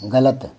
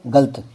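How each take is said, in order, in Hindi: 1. बीच की 'la' ध्वनि को पूरा ज़ोर दिया गया है। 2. बीच की 'la' ध्वनि कमज़ोर और जल्दी में बोली गई है। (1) "गलत शब्द है ये" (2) "ले पर जोर दिए ही नहीं"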